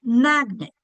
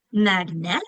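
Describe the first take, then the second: First: MAGNET as MAG-nit, first syllable long, second reduced; stress on first syllable. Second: MAGNET wrongly stressed on the end, mag-NET with a full E; stress on second syllable. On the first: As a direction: stretch the MAG of MAGNET, let the end fall. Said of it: "we're saying that first syllable longer". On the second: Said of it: "Which syllable is getting the accent?". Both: Shown as a demonstration.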